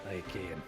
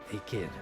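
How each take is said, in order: No difference in how they are said.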